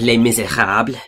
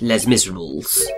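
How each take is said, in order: First: It is pronounced with French sounds. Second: It is pronounced with English sounds. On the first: The speaker calls it right. "instead of" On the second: The speaker calls it wrong. "you get"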